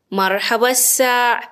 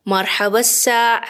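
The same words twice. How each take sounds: The two takes are said the same way.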